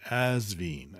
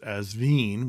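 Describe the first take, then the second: First: The name is said as English letters suggest, with z. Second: The name is said with a French-sounding pronunciation. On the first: "as if it's A-Z-V-I-N" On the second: "which sounds very sexy because it sounds French"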